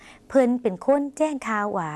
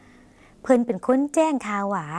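First: Very slow, clear repeat of เพิ่นเป็นคนแจ้งข่าวหวา; slow Lao demo. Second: Very slow, clear model sentence เพิ่นเป็นคนแจ้งข่าวหวา; slow Lao demo. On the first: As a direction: repeat it very slowly for learners. (อ่านซ้ำช้ามากให้ผู้ชมพูดตาม) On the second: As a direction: drag it out for learners to copy. (อ่านช้ามากให้ผู้ชมพูดตาม) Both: Shown as a demonstration. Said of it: "ลองออกเสียงภาษาลาว".

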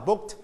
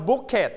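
First: "booked" as one syllable, BOOKT; softened final t. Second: "bucket" said BOOK-ket, a mistaken past tense; wrong extra syllable. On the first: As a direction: end "booked" on a light t. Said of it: "and volume down". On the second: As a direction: say "bucket" as book plus a full -et. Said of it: "we don't pronounce bucket". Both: Shown as a demonstration.

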